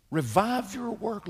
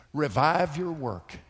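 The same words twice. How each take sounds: First: High, slow cry of revive; impassioned cry. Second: Said in the usual way. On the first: Acted. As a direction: lift revive up high and stretch it out. Preacher repeats prayer emphatically.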